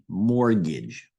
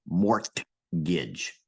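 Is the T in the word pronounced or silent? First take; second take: silent; pronounced. First: The T sound is swallowed and not heard. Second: The T sound is clearly pronounced. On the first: The speaker calls it right. "you swallow that T" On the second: The speaker calls it wrong. "you don't say mortgage"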